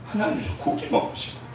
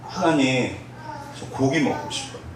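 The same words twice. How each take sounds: First: Unvoiced, much softer plea; whispered prayer. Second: Soft hushed plea for meat; quiet prayer. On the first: Trainee whispering her prayer for meat to God. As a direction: breathe it out as a secret wish to God. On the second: Retold or imitated. Hungry trainee softly asking God for meat, hushed. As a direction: murmur it like a tired, hungry prayer.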